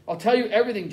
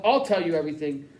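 First: Yelled. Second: Said in the usual way. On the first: Acted. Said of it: "Jack yelled".

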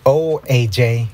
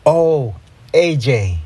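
First: Slow, let-down sigh of a teacher. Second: Slow, lovestruck sigh. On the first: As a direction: sigh the name slowly, mildly let down. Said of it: "Mister Cooper sighed". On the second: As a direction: sigh the name dreamily, drawn out. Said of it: "I sighed". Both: A narrator's reading.

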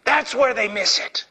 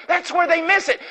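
First: Said in the usual way. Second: Much higher, ringing preacher's cry; preached emphasis. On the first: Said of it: "repeated line". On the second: Shown as a demonstration. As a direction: hit the line hard like a revival preacher. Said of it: "repeated line, higher".

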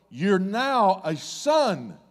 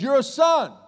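First: Drawn out slowly, each word weighed; slow declaration. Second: Higher, louder declaration; proclaiming Jesus. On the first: Jesus confirms the man's sonship, slow and deliberate. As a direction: lay it down slowly and solemnly. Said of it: "and he's going". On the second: Jesus declares the twisted man a son, loud proclamation. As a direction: declare it over him. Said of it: "he says". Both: Acted.

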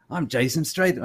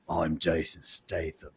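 First: Attempted British accent, slightly raised pitch; clumsy mock-British name drop; Jason Statham. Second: Slow, low, mock-American movie-star voice; exaggeratedly lowered voice, quiet and slow; Jason Statham. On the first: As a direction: have a go at a bad British accent. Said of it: "that's a terrible accent". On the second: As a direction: drop it deep and drag it out. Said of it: "it's just lower".

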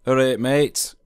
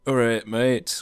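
First: Louder and higher Yorkshire greeting, "All right, mate" called out as ah-ret mey; broad Yorkshire greeting. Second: Casual broad Yorkshire greeting, "All right, mate" clipped to ah-reyt meyt; easy Yorkshire hello between mates; thick Yorkshire accent. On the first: Shown as a demonstration. Showing visitors what they'll hear in Yorkshire, broad Yorkshire greeting. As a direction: call it out like a friendly Yorkshireman. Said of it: "three words that you may commonly hear if you ever visit Yorkshire".

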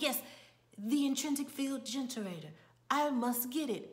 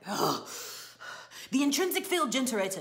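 First: Higher, measured imitation of amateur acting; stage-actor delivery. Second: Loud, fast, higher-pitched mock outburst; groan, then fire off the correction; exasperated prompting. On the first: Assistant corrected by the playwright mid-play, stagey delivery. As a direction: recite the corrected line as an actor would. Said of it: "He's like". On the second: Playwright prompting a flubbed line, loud exasperation.

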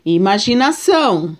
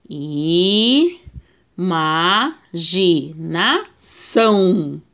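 First: Said in the usual way. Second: "Imaginação" split into syllables very slowly; "Imaginação" spaced out syllable by syllable; slow syllable reading. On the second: Shown as a demonstration. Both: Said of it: "vamos ver a separação".

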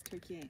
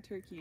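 First: Turkey as "tur-kee-ay"; Turkish-style pronunciation. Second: Said in the usual way. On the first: Shown as a demonstration. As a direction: add "ay" to the end of Turkey. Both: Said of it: "it's not Turkey anymore".

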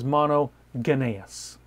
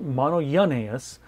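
First: "monogenes" read the way it looks on the page; "monogenes" as a beginner would read it; spelling pronunciation. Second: "monogenes" said the proper Greek way; "monogenes" said carefully, as the right form; correct Greek pronunciation. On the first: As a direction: sound out "monogenes" letter by letter, the naive way. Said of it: "it looks like it says monogenes". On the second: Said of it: "It's actually pronounced monogenes". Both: Shown as a demonstration.

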